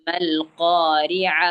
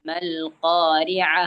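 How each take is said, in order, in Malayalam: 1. വാക്ക് മൃദുവായ 'h' ശബ്ദത്തിലാണ് അവസാനിക്കുന്നത്. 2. വാക്ക് മൃദുവായ 'h' ശബ്ദത്തിലാണ് അവസാനിക്കുന്നത്.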